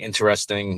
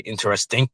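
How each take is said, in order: First: The word is said in a plain accent. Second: The word is said in a German-style accent. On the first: "instead of saying interesting" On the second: "one of the Germans ... he seemed to say interesting"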